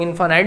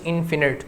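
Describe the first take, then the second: First: इनफाइनाइट with "fai-nait", both i's like "eye"; इनफाइनाइट as in-FINE-ite, long vowels; long-i pronunciation. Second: इनफिनिट with short "fi-nit", i as in "sit"; इनफिनिट as in-fi-nit, short vowels throughout; short-i pronunciation. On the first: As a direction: say इनफाइनाइट rhyming its end with "night". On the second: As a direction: say इनफिनिट ending like "knit". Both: Shown as a demonstration. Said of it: "pronunciation".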